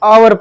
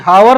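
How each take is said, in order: First: The word begins with a vowel sound. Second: The word begins with an h sound. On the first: The speaker calls it right. "आवर पढ़ रहे हैं" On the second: The speaker calls it wrong. "हावर नहीं हम पढ़ रहे"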